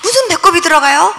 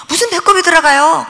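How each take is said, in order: First: Asked with a rising, doubting lilt; mother can't believe the navel went in, rising disbelief; incredulous question. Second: Same question, falling flatly this time; mother repeats her doubt, falling tone; repeated disbelief. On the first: 무슨 배꼽이 들어가요 said rising in disbelief. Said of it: "그랬더니요, 그분이요". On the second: 무슨 배꼽이 들어가요 said falling, insisting. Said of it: "그랬더니". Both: Retold or imitated.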